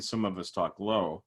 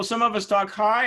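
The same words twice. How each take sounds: First: Dropped down in pitch; low voice. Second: Pitched up high and louder. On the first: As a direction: show what talking low sounds like. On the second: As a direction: show what talking high sounds like. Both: Shown as a demonstration.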